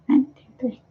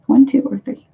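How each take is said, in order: First: "One, two, three" whispered under the breath; whispered count. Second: Said in the usual way. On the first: Real, not acted. Promising viewers card readings next week, whispered count.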